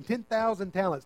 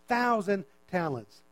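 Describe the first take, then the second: First: Said in the usual way. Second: Thousand talents drawn out slowly, stress on thousand; slow emphatic repeat. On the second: Shown as a demonstration.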